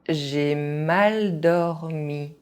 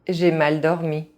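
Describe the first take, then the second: First: It is said at an ordinary speaking pace. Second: It is said fast, with some sounds dropped. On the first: This is the pace learners should use. "at a normal pace" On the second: This is how native speakers say it. "fast, as a native speaker would do"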